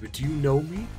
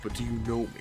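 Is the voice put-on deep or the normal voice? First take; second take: normal; deep. First: It is said in the speaker's normal voice. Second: It is said in a put-on, very deep voice.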